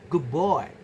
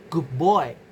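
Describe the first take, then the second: First: Good ends in a b sound before boy. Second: Good ends in a b sound before boy.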